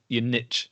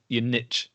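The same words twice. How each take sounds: First: Niche is said the American way. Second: Niche is said the American way.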